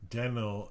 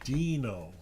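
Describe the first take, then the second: First: The first vowel is said short. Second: The first vowel is said long. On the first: The speaker calls it wrong. "When I'm saying Deno" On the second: The speaker calls it right. "it really should be Dino following that rule"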